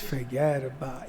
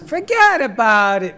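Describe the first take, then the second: First: It is said in an upset, gloomy tone. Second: It is said in a pleased, upbeat tone. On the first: The news is bad. "Bad news" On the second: The news is good. "Good news"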